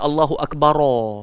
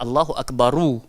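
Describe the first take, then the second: First: Akbar ends with an 'o' vowel. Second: Akbar ends with a clear 'u' vowel. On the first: The speaker calls it wrong. "Dia tak boleh baca Allahu Akbaro" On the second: The speaker calls it right. "Yang sepatutnya adalah Allahu Akbaru. ... dhammah zahirah"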